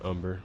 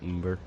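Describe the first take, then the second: First: The word is said the standard expected way. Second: The word is said in a personal variant. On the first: This is how it is probably meant to be said. "it's probably pronounced umber" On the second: This is the speaker's own habit. "I pronounce it umber"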